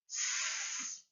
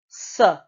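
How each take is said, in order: First: The consonant sound is said alone, with no vowel. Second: The consonant sound has a vowel added after it. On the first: The speaker calls it right. "we carefully pronounce the sounds" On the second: The speaker calls it wrong.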